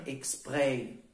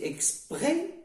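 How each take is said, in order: First: Exprès with an open final vowel; open e ending exprès. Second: Exprès with a tight final vowel; closed e ending exprès. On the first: Teacher giving the correct option, open è in exprès. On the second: Teacher asking which sounds right, closed e in exprès. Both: Shown as a demonstration. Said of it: "toujours le E ouvert".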